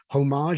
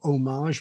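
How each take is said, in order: First: The word begins with an H sound. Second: The word begins with no H sound. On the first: "you pronounced it with an H as well" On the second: "without the H"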